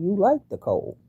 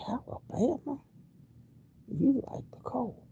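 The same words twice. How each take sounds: First: Said in the usual way. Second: High, soft, breathless whisper of amazement; wondering whisper to herself. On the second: Real, not acted. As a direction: hush it like a marvel. Repeats line, then whispers it.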